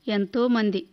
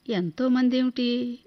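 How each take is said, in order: First: Short, clipped-off answer with a falling end; brief, sorrowful reply; curt reply. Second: Slow, questioning echo stressing మంది; slow bewildered question; puzzled repeat. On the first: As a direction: answer briefly, closing the subject on ఎంతో. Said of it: "క్లుప్తంగా చెప్పింది". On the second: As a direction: repeat her words back, not understanding. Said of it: "అర్థం కాలేదు నాకు". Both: A narrator's reading.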